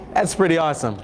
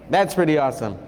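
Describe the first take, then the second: No difference in how they are said.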